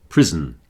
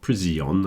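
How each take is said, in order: First: No extra syllable is added after the S. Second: An extra syllable is added after the S. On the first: The speaker calls it right. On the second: The speaker calls it wrong.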